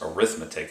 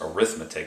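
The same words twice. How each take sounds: First: It is pronounced the way the noun is. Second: It is pronounced the way the noun is.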